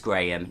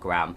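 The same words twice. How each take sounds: First: The name is said in a British accent. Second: The name is said in an American accent.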